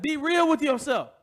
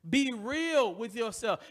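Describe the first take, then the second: First: Louder, higher call of "Be real with yourself" with "real" hit hardest; loud quoted exhortation. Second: Slow, weighty, every word of "Be real with yourself" leaned on; slow emphatic exhortation. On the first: Retold or imitated. Preacher quoting someone's advice, calling it out loud. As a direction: fling out "real" like a quoted shout. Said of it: "Somebody said". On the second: Shown as a demonstration. Preacher urging the congregation, slow and weighty. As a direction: press "Be real with yourself" slowly on the church.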